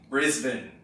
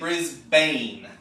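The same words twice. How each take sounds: First: The last syllable is reduced, like 'bin'. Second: The last syllable is full, like 'bane'. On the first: The speaker calls it right. "but the locals say Brisbane" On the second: The speaker calls it wrong. "you might be tempted to say Brisbane"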